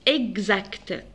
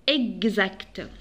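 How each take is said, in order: Both takes have the same delivery.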